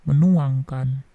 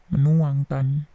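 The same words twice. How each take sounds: No difference in how they are said.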